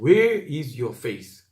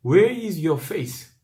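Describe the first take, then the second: First: Slow, steady English reading of the line; slow English repeat. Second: Very slow, every word drawn out in English; slow English reading. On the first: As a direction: repeat it slowly for weight. (영어 구절을 천천히 되풀이) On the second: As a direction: read the English line slowly and gravely. (영어 성경 구절을 아주 천천히 읽기) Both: Shown as a demonstration. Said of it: "영어 성경에는 진짜 그렇게 번역".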